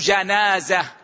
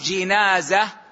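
First: The first syllable has the vowel 'a'. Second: The first syllable has the vowel 'i'. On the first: "بفتح الجيم" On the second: "بكسر الجيم"

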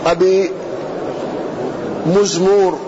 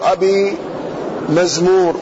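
First: The first m is followed by a u vowel. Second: The first m is followed by an a vowel. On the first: "بضم الميم الأولى" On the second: "وفتحها"

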